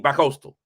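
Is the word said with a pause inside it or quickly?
quickly. The word is said quickly without a pause. The speaker calls it right. "You gotta say it quickly"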